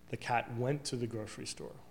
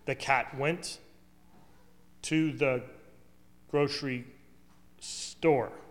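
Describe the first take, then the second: First: It is said as one smooth, flowing phrase. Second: It is said in choppy, disjointed pieces.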